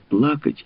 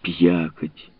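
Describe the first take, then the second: First: The L sound is pronounced clearly. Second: The L sound is replaced by a soft glide. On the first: "Вместо «плакать»" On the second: "Он не выговаривал букву «Эль»"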